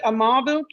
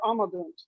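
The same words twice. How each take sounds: First: Amabunt said a-MA-bunt; stress on second syllable. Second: Amabunt said AH-ma-bunt; stress off the middle syllable. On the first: Student checking the pronunciation with teacher, amabunt stressed on MA. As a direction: amabunt with the beat on its middle syllable. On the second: Student offering the other pronunciation, amabunt stressed on first syllable. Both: Shown as a demonstration. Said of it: "is it amabunt or amabunt".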